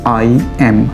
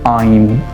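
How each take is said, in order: First: It is said as two separate words. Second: It is said as one joined word. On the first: The speaker calls it wrong. "इस word को अक्सर बच्चे pronounce करते हैं आई एम" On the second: The speaker calls it right. "उसमें एम मिला देना है"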